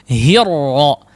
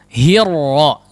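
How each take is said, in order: No difference in how they are said.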